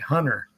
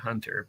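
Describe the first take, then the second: First: The T sound is dropped from the name. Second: The T sound is clearly pronounced in the name. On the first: This is how other Americans say it. "they leave out the" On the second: This is how the speaker normally says it. "I always say Hunter"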